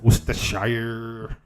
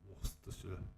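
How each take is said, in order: First: It is said in an American accent. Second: It is said in a British accent.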